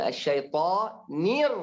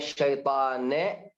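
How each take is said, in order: First: The word ends with the syllable -onir. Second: The word ends with the syllable -ane. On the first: The speaker calls it right. "Enggak kurang, enggak panjang" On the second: The speaker calls it wrong.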